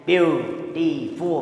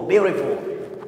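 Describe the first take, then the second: First: Syllables drawn out. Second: Said in the usual way. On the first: Shown as a demonstration. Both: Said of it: "Then we pause in some".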